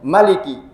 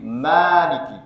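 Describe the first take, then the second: First: The first vowel is kept short. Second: The first vowel is held long. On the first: The speaker calls it wrong. "tanpa mat ... itu di riwayatnya lain" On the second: The speaker calls it right. "dibaca dengan mat"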